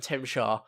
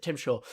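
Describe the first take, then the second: First: Tim Shaw in a light Yorkshire accent, Shaw like "sure". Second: Said in the usual way. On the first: Shown as a demonstration. Reviewer demonstrating the villain's name pun, lightly Yorkshire accented. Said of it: "if you say it in a Yorkshire accent". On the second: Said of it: "it sounds like Tim Shaw".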